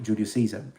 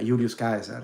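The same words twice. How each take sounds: First: The name is pronounced with English sounds. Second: The name is pronounced with Latin sounds. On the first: "instead of" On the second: "the full pronunciation in Latin"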